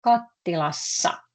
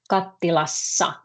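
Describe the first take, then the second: First: Kattilassa, the ending ssa said clearly, falling; clear Finnish model. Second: Kattilassa with a long ss; clear Finnish model. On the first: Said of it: "Minä keitän riisiä". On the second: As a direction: model kattilassa again with a doubled s. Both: Shown as a demonstration.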